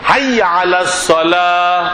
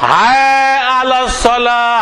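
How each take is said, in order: First: The first word is said as 'hai'. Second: The first word sounds like the lament 'hay'. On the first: The speaker calls it right. "শব্দটা হলো হাই" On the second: The speaker calls it wrong. "আমার কানে আসছে হায় আলাস সালাহ, হায় হায় হায় করে"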